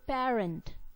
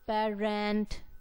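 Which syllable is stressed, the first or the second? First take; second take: first; second. First: The stress is on the first syllable. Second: The stress is on the second syllable. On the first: The speaker calls it right. "So we say parent" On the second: The speaker calls it wrong. "We do not say parent"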